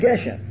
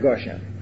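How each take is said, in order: First: The first vowel is an e sound. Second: The first vowel is an o sound. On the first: The word is not at the end of the verse. The speaker calls it right. "That's why I say Marad Geshem" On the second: The word is at the end of the verse. The speaker calls it wrong. "not Marad Goshem"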